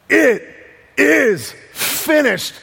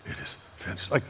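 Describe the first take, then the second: First: The phrase is cried out in a loud voice. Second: The phrase is said in a weak whisper. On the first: "with a loud voice, he cries" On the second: "Like whispering"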